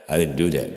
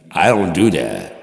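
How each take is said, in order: First: Said in the usual way. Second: Mock angry denial. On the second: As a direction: snap back defensively, loud. Mock argument with himself.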